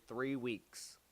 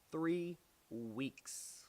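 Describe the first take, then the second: First: Said in the usual way. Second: "Three weeks" softer, each word drawn out and set apart; emphatic repeat. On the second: Real, not acted. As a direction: stretch "Three" and "weeks" with a pause between.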